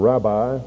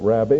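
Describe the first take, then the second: First: The word is said in a standard pronunciation. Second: The word is said in a Scottish pronunciation. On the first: "for Rabbi" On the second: "in Scotland ... they pronounced it Rabbi"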